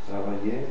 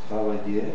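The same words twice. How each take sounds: The two takes are said the same way.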